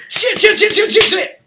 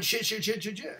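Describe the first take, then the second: First: High, loud imitation of a panicked teacher; rapid-fire panicked swearing, pitched way up; panicked yelping. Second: Softly imitated string of swearing; subdued recap. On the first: Acting out a teacher whose robe caught fire, panicked yelping. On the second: Student reminding his teacher of the outburst, subdued recap. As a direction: repeat the outburst quietly, toned right down.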